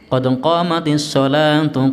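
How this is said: The last word ends with a full tu syllable. The phrase continues into what follows.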